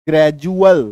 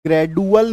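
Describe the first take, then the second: First: ग्रेजुअल with a clear j sound for the d; correct pronunciation. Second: ग्रेडुअल with a hard retroflex d; wrong pronunciation. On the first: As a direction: say ग्रेजुअल as gre-ju-al, the d turned to j. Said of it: "ग्रेजुअल बोलेंगे". (ग्रेजुअल में डी को ज बोलें) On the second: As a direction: say ग्रेडुअल as gre-du-al, a hard d instead of j. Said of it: "ग्रेडुअल नहीं बोलेंगे". (ग्रेडुअल, कठोर ड के साथ गलत उच्चारण) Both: Shown as a demonstration.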